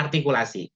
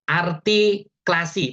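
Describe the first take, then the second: First: 'artikulasi' with every syllable clear, ar-ti-ku-la-si; correct pronunciation. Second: 'artikulasi' said slowly as artiklasi, the u swallowed; drawn-out 'artikulasi' with the middle syllable slurred away; wrong pronunciation. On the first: Teacher giving the correct form after the slip, crisp. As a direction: say 'artikulasi' fully, the ku sounded. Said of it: "padahal artikulasi". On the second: Teacher demonstrating a tongue slip for the audience, slurred. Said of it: "misalnya gini". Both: Shown as a demonstration.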